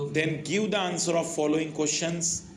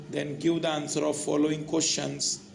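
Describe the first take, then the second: Both takes have the same delivery.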